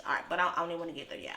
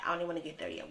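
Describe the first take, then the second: First: Quick, rushed brush-off; rushed, fast brush-off. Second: Said in the usual way. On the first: Real, not acted. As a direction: hurry past it. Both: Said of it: "We're gonna hold on".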